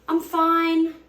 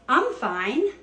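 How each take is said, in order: First: It sounds unhappy and not really fine. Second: It sounds cheerful and genuinely fine.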